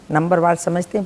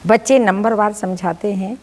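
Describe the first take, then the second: First: समझते said as sam-jhte, short, with no aa; corrected समझते, stress on नंबरवार; corrected word. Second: समझाते said as sam-jhaa-te, with a long aa, by mistake; slip of the tongue. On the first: (सुधार कर समझते बोला गया) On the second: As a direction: misspoken समझाते before self-correction. (गलती से समझाते बोला गया) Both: Real, not acted.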